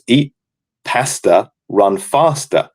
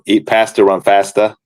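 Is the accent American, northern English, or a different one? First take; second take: different; American. First: It is said in the speaker's own accent. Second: It is said in an American accent. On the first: "in my accent" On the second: "the American accent would be"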